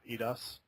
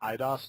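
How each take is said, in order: First: The name begins with an 'ee' sound. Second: The name begins with an 'eye' sound. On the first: The speaker calls it wrong. "not EDOS" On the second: The speaker calls it right. "IDOS, not EDOS"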